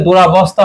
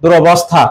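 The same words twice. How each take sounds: First: দুরাবস্থা with a long "aa" after the r; wrong form. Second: দুরবস্থা with short "o" after the r; correct form. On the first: Teacher shows students the form to avoid, দুরাবস্থা with long "aa". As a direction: say দুরাবস্থা with an added "aa", durabostha. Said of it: "দুরাবস্থা হয় না". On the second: Teacher gives students the correction, দুরবস্থা with short "o". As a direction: say দুরবস্থা as du-ro-bos-tha, no long "aa". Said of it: "কি হয়?". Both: Shown as a demonstration.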